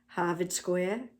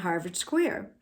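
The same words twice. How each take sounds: First: It is said in a Boston accent. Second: It is said in a plain, non-Boston accent.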